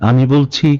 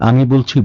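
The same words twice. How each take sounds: Both takes have the same delivery.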